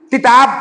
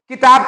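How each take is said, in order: First: तिताब with a t in place of the k; child's mispronunciation. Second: Said in the usual way. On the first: Shown as a demonstration. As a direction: say तिताब the way a toddler says किताब. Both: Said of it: "किताब को तिताब बोलेगा".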